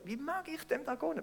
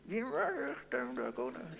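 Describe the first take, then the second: First: It sounds warm and sincerely generous. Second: It sounds grudging and insincere.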